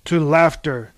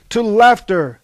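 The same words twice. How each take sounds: First: Toasting. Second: High, loud cheer "To laughter"; loud group toast. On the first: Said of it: "toasted Hesiod". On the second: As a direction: shout "laughter" as a raucous toast. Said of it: "toasted the others". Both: A narrator's reading.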